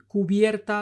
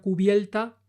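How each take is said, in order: First: An r comes before the t. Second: An l comes before the t.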